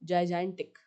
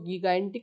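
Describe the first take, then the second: First: The word begins with a j sound. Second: The word begins with a hard g sound. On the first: The speaker calls it right. "जाइजेंटिक बोलने में भी फर्क होता है" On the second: The speaker calls it wrong. "इसको गीगाइंटिक नहीं बोलना आप लोगों को"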